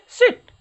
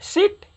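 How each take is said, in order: First: सिट high and loud with a short "i"; short sound. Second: सिट with a long "ee", as in seat, high pitched; long sound. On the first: Teacher answers how the short form goes, सिट with short "i". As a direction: punch out सिट with a quick vowel. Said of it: "short में क्या बोलेंगे". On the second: Teacher drills the long take, सिट with held "ee". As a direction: hold the vowel in सिट. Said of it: "ये long sound क्या हो गया". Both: Shown as a demonstration.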